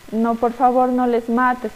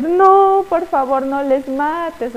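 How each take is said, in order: First: Said in the usual way. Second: A mock pleading cry, high on the no, then slow on "no les mates"; a hint of a tearful queen begging her husband; tearful plea. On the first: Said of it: "la reina le dice". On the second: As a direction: beg like a weeping queen, lightly acted. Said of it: "se ponía a llorar".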